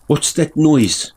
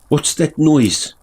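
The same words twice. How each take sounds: First: It is said in a South African accent. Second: It is said in a South African accent.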